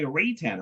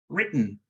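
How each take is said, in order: First: The middle consonant is clearly released before the vowel. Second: The middle consonant is cut short into a hum. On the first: The speaker calls it wrong. "normally we say Raytan" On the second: The speaker calls it right. "a weird combination between re, mm, written"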